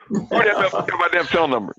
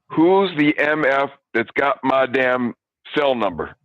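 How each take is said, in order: First: It is said quickly. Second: It is said slowly.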